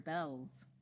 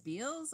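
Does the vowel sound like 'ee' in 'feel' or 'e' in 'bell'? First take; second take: e; ee. First: The vowel is a short e sound. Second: The vowel is a long ee sound. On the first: "or Bells?" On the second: "Does he pronounce Beals Beals or Bells?"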